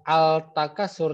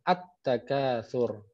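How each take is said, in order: First: The L sound is pronounced before the T. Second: The L merges into a doubled T sound. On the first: The speaker calls it wrong. "bukan al takasur" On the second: The speaker calls it right. "tapi langsung at takasur"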